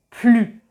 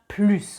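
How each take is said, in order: First: The final S sound is silent. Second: The final S sound is pronounced. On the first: The speaker calls it right. "on va prononcer plus" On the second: The speaker calls it wrong. "et pas plus"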